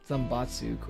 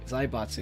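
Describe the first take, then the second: First: The first syllable has an 'm' sound. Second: The first syllable has an 'ai' sound. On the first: The speaker calls it wrong. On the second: The speaker calls it right.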